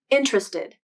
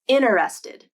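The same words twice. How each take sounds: First: The first T is kept in three syllables. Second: The first T is dropped in four syllables. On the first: "the more common pronunciation is interested, as three syllables" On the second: "The first T is gone"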